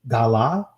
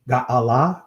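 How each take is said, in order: First: The middle sound is dropped, giving two syllables. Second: The middle sound is kept, giving three syllables. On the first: "they'll trunk, uh, you know, the I in the middle" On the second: "You can say it that way as well"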